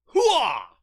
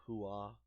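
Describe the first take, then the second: First: Full-throated hooah, high and loud; shouted battle cry. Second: Said in the usual way. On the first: Shown as a demonstration. Vlogger showing viewers the real battle cry, loud shout. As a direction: bark it out like a soldier on the line. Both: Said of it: "the battle cry itself".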